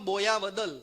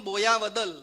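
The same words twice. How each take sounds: No difference in how they are said.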